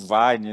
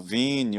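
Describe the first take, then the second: First: It is said English-style, as one syllable. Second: It is said Portuguese-style, ending in an ee vowel. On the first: The speaker calls it right. "O nome é em inglês" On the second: The speaker calls it wrong. "não, não, não, é Vine"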